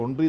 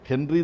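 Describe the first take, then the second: First: The name begins with a vowel, no H. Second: The name begins with an H sound. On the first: This is how the name should be pronounced. The speaker calls it right. "ഒൺറി എന്നാണ് ഉച്ചരിക്കേണ്ടത്" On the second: This is how the name is written. The speaker calls it wrong. "ഹെൻറി എന്നാണ് എഴുതുക"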